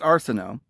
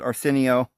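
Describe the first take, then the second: First: The name is said like Arsinoe. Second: The name is said like Arsenio. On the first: The speaker calls it right. "but it's Arsinoe" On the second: The speaker calls it wrong. "Some may pronounce it Arsenio, like that Arsenio Hall guy"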